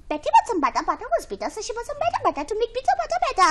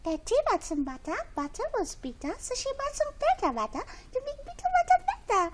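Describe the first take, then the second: First: The line is said plainly, without a sweet tone. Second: The line is said softly, with a sweet tone.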